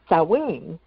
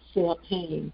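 First: The word is not pronounced as it is spelled. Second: The word is pronounced the way it is spelled. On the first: The speaker calls it right. "Halloween is Samhain" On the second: The speaker calls it wrong. "when I was younger and I first saw the word, I always said Samhain"

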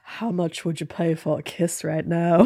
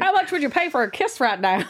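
First: It is said in a seductive, sexy voice. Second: It is said like a carnival barker.

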